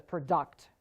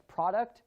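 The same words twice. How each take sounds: First: Pro-DUCT, last syllable stressed; "product" said as pruh-DUCT; stress on second syllable. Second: PRO-duct, first syllable stressed; "product" said as PROD-uct. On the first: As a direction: punch the end of "product". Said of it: "can also be pronounced as product". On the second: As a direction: punch the start of "product". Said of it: "It is called syllable stress". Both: Shown as a demonstration.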